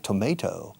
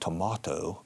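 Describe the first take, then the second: First: It is said with an American pronunciation. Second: It is said with a British pronunciation. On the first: "La pronunciación americana de tomate" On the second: "Los británicos dicen tomato"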